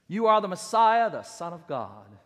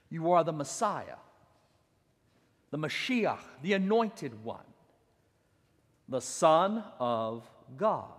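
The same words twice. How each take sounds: First: Said in the usual way. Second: Reverent. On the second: Acted. Slow, reverent quote.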